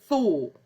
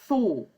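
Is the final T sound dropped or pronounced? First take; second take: dropped; dropped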